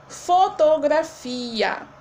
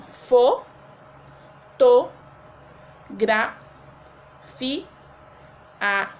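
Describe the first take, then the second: First: Slow, drawn-out "Fotografia" before splitting it; whole word, slowly. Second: "fo, to, gra, fi, a" each syllable said apart with pauses; split into syllables. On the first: Teacher shows pupils the word, slowly drawn out. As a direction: stretch "Fotografia" out for the class. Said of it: "Quando nós separamos essa sílaba". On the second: Teacher breaking a word into syllables, one by one. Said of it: "fica assim". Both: Shown as a demonstration.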